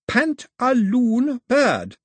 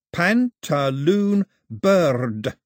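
First: Put-on very slow, much higher, louder, like to a baby; very slowly. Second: Very slow, higher, louder repeat; slow baby talk. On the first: Daphne spelling the name out slowly for Mao. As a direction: stretch out "Pantaloon bird" syllable by syllable. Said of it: "she said very slowly". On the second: Mao copying Daphne's slow baby talk back to her. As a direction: drag out "Pantaloon bird" the way she did. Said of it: "That's how you talk to babies". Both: A narrator's reading.

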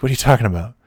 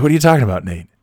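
First: Said in the usual way. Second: Playing dumb. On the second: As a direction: feign innocence, pitched up. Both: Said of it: "I'm like".

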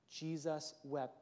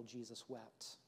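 First: Slow repeat. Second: Hushed reverence. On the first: Pastor repeating the verse, slow and weighty. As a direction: stretch each word. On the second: Pastor to congregation, hushed and reverent. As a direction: drop the voice to a near hush on Jesus wept. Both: Shown as a demonstration. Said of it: "yet arguably one of the most powerful".

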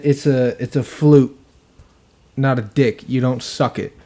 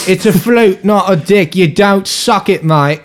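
First: Said in the usual way. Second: Higher, louder mock British bloke; British accent. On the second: Podcast listener quoting the hosts' funny accents, mock British accent. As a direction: imitate a loud British lad, pitched up. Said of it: "they said it like".

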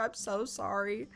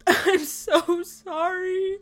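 First: Softer, sheepish retold apology; retold remorse. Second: Put-on high, slow, wailing kid apology; mock crying. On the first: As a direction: say it small and sorry, imitating him. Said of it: "Arlen felt so bad". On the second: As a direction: imitate a crying kid, drawn out. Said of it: "kid come in crying".

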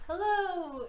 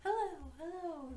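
First: Higher-pitched "Hello!" called down a hole; calling into a pit. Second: High, softer echo of a shout. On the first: Player peering over the pit, calling out hello. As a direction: holler a greeting down into the depths. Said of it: "head over the pit and goes". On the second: Pit throws the player's hello back, echoing. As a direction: repeat it faintly like an echo from a pit. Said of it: "the echoes back". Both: Acted.

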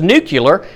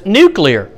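First: Nuclear pronounced NOO-kyuh-ler; NUCLEAR as nucular. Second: Nuclear pronounced NOO-klee-er; NUCLEAR as spelt. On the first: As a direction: say nuclear with kyu-ler at the end. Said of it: "who in here says nuclear". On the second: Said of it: "and who says nuclear". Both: Shown as a demonstration.

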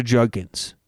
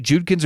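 First: "Judkins" said with an UH vowel, like JUG-kins; pronunciation check. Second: "Judkins" said with an OO vowel, like JOOD-kins; pronunciation check. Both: Shown as a demonstration. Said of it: "or is it Judkins or Judkins?".

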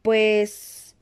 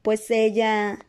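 First: A hoarse, hesitant start; mildly husky, drawn-out first word. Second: Said in the usual way. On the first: A narrator's reading. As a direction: begin with a croak in the throat. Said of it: "con voz ronca". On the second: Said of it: "se aclaró la garganta y lo intentó de nuevo".

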